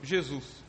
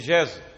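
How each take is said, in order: First: The name is pronounced with Brazilian Portuguese sounds. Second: The name is pronounced with French sounds. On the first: This is how it is said in Brazil. "Nasceu no Brasil" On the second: This is how it is said in France. "Tivesse nascido na França"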